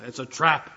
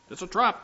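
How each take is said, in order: First: Said in the usual way. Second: It's a trap said higher as a playful warning; mock alarm. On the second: Shown as a demonstration. Pastor teasing the congregation, "trap" pitched high in mock alarm. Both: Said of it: "you're not supposed to cheer along".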